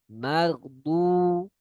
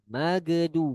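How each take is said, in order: First: The gh sound flows without stopping. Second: The gh sound is stopped with a bounce. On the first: The speaker calls it right. "dia sifatnya rokhawah, sehingga dia harus mengalir" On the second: The speaker calls it wrong. "bukan dengan kolkolah, magedu, bukan"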